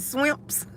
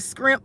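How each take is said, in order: First: The word begins with an sw sound. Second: The word begins with an scr sound. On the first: This is how some people say it. "Some people say scrimps and swimps" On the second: This is how local people used to say it. "How they used to say down here"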